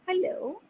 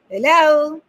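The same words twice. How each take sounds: First: The greeting sounds soft and passive. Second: The greeting sounds firm and assertive. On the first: "Quite passive" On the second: "A little assertiveness?"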